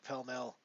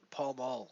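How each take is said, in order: First: The vowels sound like the 'e' in 'bell'. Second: The vowels sound like the 'a' in 'ball'. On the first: This is how other people say the name. "the way they pronounce it is hilarious" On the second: This is how the speaker would say the name. "would be the way that I would say it"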